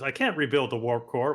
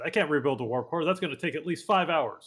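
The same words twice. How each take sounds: First: Said in the usual way. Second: Put-on light Scottish accent, engineer voice; a hint of a Scottish brogue. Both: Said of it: "he'd say it more in a Scottish accent".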